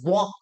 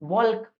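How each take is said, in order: First: No L sound is heard before the final K. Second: An L sound is heard before the final K. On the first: The speaker calls it right. "इसे पढ़ा जाता है वॉक" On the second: The speaker calls it wrong. "लेकिन वॉल्क नहीं पढ़ा जाता"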